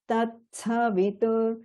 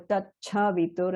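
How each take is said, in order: First: The middle consonant sounds like ts. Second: The middle consonant sounds like ch. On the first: The speaker calls it right. "Not a cha sound, it's a tsa" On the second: The speaker calls it wrong. "make sure you're not turning that into a tat, cha, vitur"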